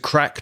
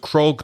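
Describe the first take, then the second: First: The name has a short 'a' vowel. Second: The name has an 'o' vowel ending in 'g'. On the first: "to crack" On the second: "to crog"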